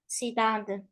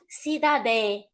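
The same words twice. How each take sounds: First: The final vowel is closed and low. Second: The final vowel is said fully open. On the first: The speaker calls it right. "We don't open the sound, we close it" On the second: The speaker calls it wrong. "Not cidade"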